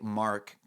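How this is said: It is said in an American accent, mouth wide open. "in America they say Mark"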